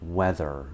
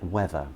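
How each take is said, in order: First: An R sound is heard at the end. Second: No R sound is heard at the end. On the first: The speaker calls it wrong. "she was pronouncing it in every word" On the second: The speaker calls it right. "pronounced a bit more like weather"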